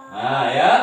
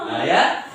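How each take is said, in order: No difference in how they are said.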